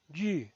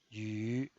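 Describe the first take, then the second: First: The pitch falls from high to low. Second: The pitch dips low, then rises. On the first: "El cuarto tono es un tono bajado" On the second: "desciende primero ... para ascender luego"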